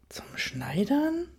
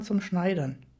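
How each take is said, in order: First: Slow, high, rising echo question; drawn-out disbelieving question, pitch climbing; incredulous. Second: Said in the usual way. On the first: A narrator's reading. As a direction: repeat it back in utter disbelief. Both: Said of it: "fragte ich ungläubig zurück".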